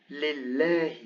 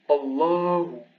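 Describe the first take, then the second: First: لله with a light, clear L and fronted "ae"; non-emphatic lam. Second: الله with a dark, heavy L and backed long "aa"; emphatic lam. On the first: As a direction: say لله with a thin L, tongue forward. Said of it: "here it's not emphatic". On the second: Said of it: "the lam is emphatic". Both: Shown as a demonstration.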